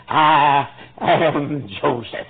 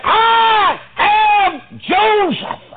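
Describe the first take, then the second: First: Slow, measured reveal; solemn announcement. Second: Very high, loud, very slow proclamation; shouted reveal. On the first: Joseph revealing himself to his brothers, slow announcement. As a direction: lay out each of the three words. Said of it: "made this announcement". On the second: Joseph revealing himself to his brothers, shouted slow proclamation. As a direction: ring the name out like a trumpet. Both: Retold or imitated.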